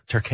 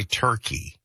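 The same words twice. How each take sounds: First: "Turkey" said "tur-KAY"; Turkish-style pronunciation. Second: Said in the usual way. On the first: Shown as a demonstration. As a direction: finish "Turkey" with "kay", not "key". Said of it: "it's not gonna be Turkey". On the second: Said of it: "it is still proper to say Turkey".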